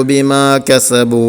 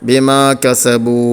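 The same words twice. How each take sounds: No difference in how they are said.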